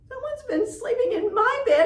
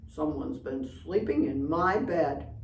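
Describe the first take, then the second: First: It is said in a squeaky little voice. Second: It is said in a deep papa bear voice.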